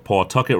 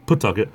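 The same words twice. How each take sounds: First: "Pawtucket" with full PAW, "paw-TUCK-et"; outsider pronunciation. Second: "Pawtucket" with reduced first vowel, "puh-TUCK-et"; local pronunciation. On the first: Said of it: "as most other places people would call it". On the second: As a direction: say "Pawtucket" like a Rhode Islander, swallowing the paw. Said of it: "we say Pawtucket". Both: Shown as a demonstration.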